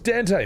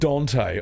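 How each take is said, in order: First: The first vowel sounds like an 'a'. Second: The first vowel sounds like an 'o'. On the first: The speaker calls it right. "Aussie Dante pronunciation. There's an A in it, so I say that" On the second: The speaker calls it wrong. "if it was pronounced Dante, all right, then it should have been spelt with an O"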